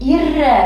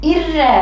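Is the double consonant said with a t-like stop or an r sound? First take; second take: r sound; r sound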